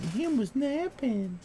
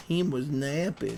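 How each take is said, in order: First: Put-on higher, slow baby talk. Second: Said in the usual way. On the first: Shown as a demonstration. Owner cooing over his napping dog, high slow baby talk. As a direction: coo it like talking about a baby.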